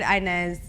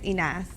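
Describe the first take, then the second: First: The name is said with an American pronunciation. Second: The name is said with an Arabic pronunciation. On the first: "That's like the Americanized way or whatever" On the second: "In Arabic, it's Inas, but like that's how you pronounce it"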